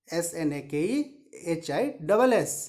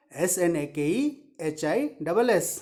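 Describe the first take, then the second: No difference in how they are said.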